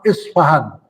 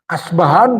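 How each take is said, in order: First: It starts with an i vowel and f. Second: It starts with an a vowel and b. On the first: "diriwayatkan juga dengan fa"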